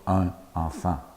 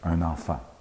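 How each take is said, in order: First: The two words are said without a liaison. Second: The two words are joined with a liaison. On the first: The speaker calls it wrong. "on ne dit pas" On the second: The speaker calls it right. "on dit"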